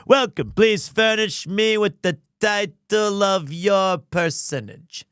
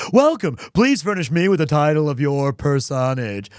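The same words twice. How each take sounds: First: Zach Brannigan. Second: Hard-sell the welcome to a customer; Stan the pitchman. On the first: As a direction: draw it out like a self-important captain. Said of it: "Zach Brannigan?". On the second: Streamer demos the Stan voice for the poll, loud pitch. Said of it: "So it goes like this". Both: Pretend.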